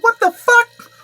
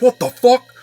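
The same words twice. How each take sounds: First: Very high, loud panicked squeal; hammed-up terrified comic's shriek; Kevin Hart scared. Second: Loud, pitched-up outburst; indignant shout. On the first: Nervous man with guns pointed at him, squealing in mock terror. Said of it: "Kevin Hart when he's really scared". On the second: Retold or imitated. Man with guns pointed at him, first version, shouted indignantly. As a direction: shout it in bold disbelief. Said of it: "it sounds more like Kevin Hart".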